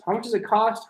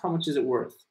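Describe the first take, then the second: First: "How much does it cost?" said high, rising on "cost"; a bright model of "How much does it cost?"; model sentence. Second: A calm model of "How much is it worth?"; model sentence. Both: Shown as a demonstration. Teacher contrasting two ways to ask a price. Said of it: "you can also say".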